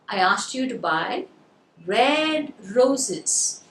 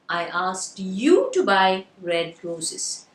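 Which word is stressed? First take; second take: red; you. First: The word "red" is stressed. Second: The word "you" is stressed. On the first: "So now you got the word red" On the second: "So the stress is on the word. Very good. You"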